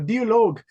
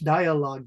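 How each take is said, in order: First: The word is pronounced the German way. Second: The word is pronounced the English way. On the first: The speaker calls it wrong. "you're saying it the German so" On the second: The speaker calls it right. "So in English"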